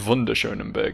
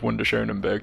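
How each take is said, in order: First: The name is said with German-style sounds. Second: The name is said with English-style sounds. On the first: The speaker calls it right. "It's probably ... because it's quite clearly a German word" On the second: The speaker calls it wrong. "I'm being very confident in my pronunciation of"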